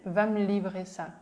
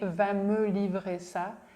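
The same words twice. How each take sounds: First: 'Va me' merges into one syllable, 'vam'. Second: Each word is said separately and clearly. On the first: "he said ... It sounds like one word, vam" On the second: "Instead of saying"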